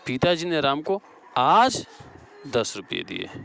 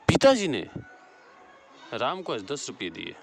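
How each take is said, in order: First: The stress falls on आज. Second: The stress falls on पिताजी. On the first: "यहाँ आज हो जाएगा।" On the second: "यहाँ पिताजी बड़ा घात हो।"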